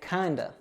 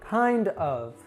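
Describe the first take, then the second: First: The word 'of' is reduced to 'uh'. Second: The word 'of' is pronounced fully. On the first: The speaker calls it right. "I'd actually say kinda" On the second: The speaker calls it wrong. "they probably taught you to say it this way"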